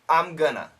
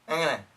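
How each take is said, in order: First: Going to is reduced to gonna. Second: It is squeezed together and said very fast. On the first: "The most common pronunciation" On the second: "And really fast"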